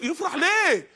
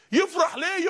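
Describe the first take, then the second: First: يفرح ليه with ليه stressed and falling; stress on why. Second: يفرح ليه with يفرح stressed, rising at end; stress on rejoice. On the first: Preacher to audience, ليه stressed with falling tune. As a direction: lean on ليه, let it drop. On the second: Preacher repeating to audience, يفرح stressed and rising. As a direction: hit يفرح, lift the end. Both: Shown as a demonstration.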